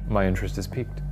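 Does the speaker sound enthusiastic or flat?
flat. It is said flatly, with no visible interest.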